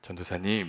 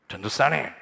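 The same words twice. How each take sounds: First: It is said in a soft, gentle way. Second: It is said in a strong, harsh way.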